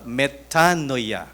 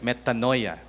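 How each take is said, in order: First: It is pronounced with Greek sounds. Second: It is pronounced with English sounds. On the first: "if you pronounce it in the original Greek" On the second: "we also pronounce it as metanoia, no? English version"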